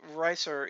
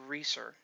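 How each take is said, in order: First: The first vowel sounds like 'eye'. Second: The first vowel sounds like 'ee'. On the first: This is how the group usually says it. "we've always pronounced it Ricer" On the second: This is how it is meant to be said. "it's supposed to be pronounced Reeser"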